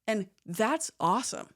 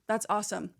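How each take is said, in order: First: It is said brightly, with genuine enthusiasm. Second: It is said flatly, without enthusiasm. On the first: The listener truly thinks it is awesome. The speaker calls it right. "My tone changed, my eyebrows went up" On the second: The listener is not really interested. The speaker calls it wrong. "they're just saying this and they don't want to talk to me"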